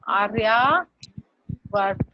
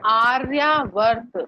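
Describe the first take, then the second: First: आर्यावर्त stretched even slower, falling at the end; very slow careful repeat. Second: आर्यावर्त drawn out slowly, each sound clear; slow syllable demo. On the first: Teacher repeats आर्यावर्त even slower for pupils. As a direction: say आर्यावर्त very slowly with a fall. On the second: Teacher slowly models आर्यावर्त for pupils. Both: Shown as a demonstration. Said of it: "चलो दिव्य में कर लो".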